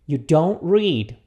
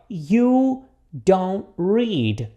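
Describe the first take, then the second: First: Slow but joined-up sentence; repeat-after-me model. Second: Very slow, long gaps between words; repeat-after-me model. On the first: Teacher repeats the negative for students, slow and connected. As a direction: say it slowly as one phrase for learners. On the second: Teacher asks students to repeat the negative, very slowly. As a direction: draw out every word for learners to copy. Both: Shown as a demonstration. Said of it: "repita comigo aqui".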